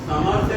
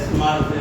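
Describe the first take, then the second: First: A full vowel separates the s and m. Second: The s runs straight into the m. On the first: The speaker calls it wrong. "આખો સ હોય તો સમર બોલાય" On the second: The speaker calls it right. "અડધો છે તો સ્મર્પિતુ"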